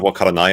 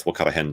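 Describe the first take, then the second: First: Wakaranai said the Tokyo way, ending in -nai; wakaranai, textbook Japanese with -nai; standard Japanese. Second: Wakarahen said Kansai style, ending in -hen; osaka japanese. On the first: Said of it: "instead of wakaranai". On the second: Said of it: "it's wakarahen down here". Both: Shown as a demonstration.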